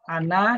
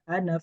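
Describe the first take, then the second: First: The final vowel is held long. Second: The final vowel is kept short. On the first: The speaker calls it wrong. "Ana itu ini panjang karena ada na, ada alifnya" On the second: The speaker calls it right. "Ana itu diwajib pendek"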